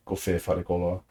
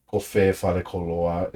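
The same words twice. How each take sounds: First: "Kofe fare koloa" with no extra stress on the final vowel of "koloa"; imitating the reader, leave "koloa" unaccented; flat read of "Kofe fare koloa" with "koloa" unstressed at the end; no definitive accent. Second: "Kofe fare koloa" said slowly with the final vowel of "koloa" stressed; slow, careful "Kofe fare koloa" with "koloa" stressed at the end; definitive accent on the end. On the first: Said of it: "It sounds like she's saying". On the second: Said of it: "it really doesn't sound like she's saying". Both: Shown as a demonstration.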